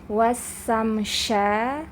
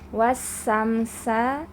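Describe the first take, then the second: First: The first is 's', the second is 'sh'. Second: Both hissing sounds are a plain 's'. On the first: "jangan sampai dibaca" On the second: "jangan sampai dibaca wasamsa"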